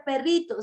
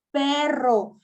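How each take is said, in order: First: Said in the usual way. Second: Perro said slow and a bit louder, the rr rolled clearly; slow clear correction. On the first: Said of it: "No se dice perrito". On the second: Shown as a demonstration. Mom modelling the correct word for baby, slow and clear. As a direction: stretch out perro firmly and clearly. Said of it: "se dice perro".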